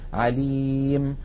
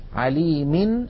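First: The word ends on a bare final consonant. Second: The same.

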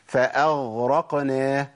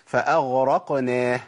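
The two takes are said the same way.

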